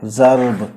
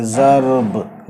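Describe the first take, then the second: First: Said in the usual way. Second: ज़र्ब drawn out very slowly, the र and ब run together; teacher slowly modelling ज़र्ब for students; slow demo pronunciation. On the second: Shown as a demonstration. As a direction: stretch out ज़र्ब so each sound is heard. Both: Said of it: "बस रे और बे की आवाज़ इसके साथ मिला देंगे".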